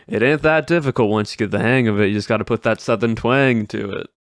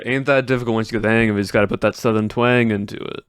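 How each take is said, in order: First: Fluent, lightly voiced Southern twang; Southern accent. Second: Quick, lightly voiced Southern twang; Southern accent. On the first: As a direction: say the stream catchphrase with a mild Southern accent. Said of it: "I can just start doing this type of Southern accent". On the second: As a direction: toss off the catchphrase in a mild Southern accent. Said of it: "Do the Southern accent".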